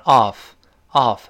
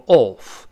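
First: American OFF with an open "ahf" vowel. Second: British OFF with a rounded "aw" vowel. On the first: Teacher compares accents, American open off. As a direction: open the mouth wider for an American off. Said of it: "美国人口型稍大一点". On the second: Teacher compares accents, British rounded off. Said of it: "英国人口型更圆一些". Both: Shown as a demonstration.

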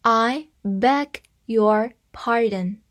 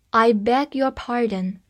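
First: Slow, careful reading. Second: Said in the usual way. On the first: Shown as a demonstration. Teacher reading a phrase slowly for the class. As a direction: read it slowly for learners to follow. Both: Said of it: "我们慢慢来把它读一遍".

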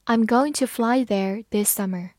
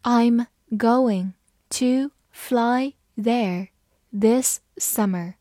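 First: Said in the usual way. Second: Very slow, word-by-word model sentence; slow reading. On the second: Shown as a demonstration. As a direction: read it slowly, each word apart. (慢慢地一词一词读) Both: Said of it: "好，慢慢来读".

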